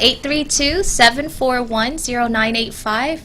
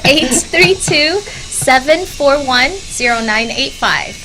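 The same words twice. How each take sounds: First: The number is said at normal speed. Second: The number is said more slowly.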